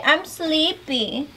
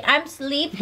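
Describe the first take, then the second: First: Put-on drawn-out, high sleepy baby talk; slow baby talk. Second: Put-on baby talk. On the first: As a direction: stretch it out for the toddler to copy. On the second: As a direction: coax it out like talking to a baby. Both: Shown as a demonstration.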